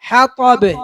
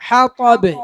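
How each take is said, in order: Both takes have the same delivery.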